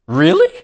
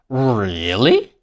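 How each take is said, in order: First: The pitch rises on the word. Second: The pitch falls and then rises. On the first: The speaker is surprised or genuinely asking. "If I say it with a rising tone" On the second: The speaker is intrigued but a little skeptical. "If I say it with a fall, rise tone"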